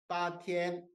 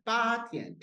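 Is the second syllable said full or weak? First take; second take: full; weak. First: Both syllables get their full tones equally. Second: The first syllable is stressed, the second weakened. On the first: "원래 성조 맞았는데" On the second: "이런 식으로 이제 많이 읽어"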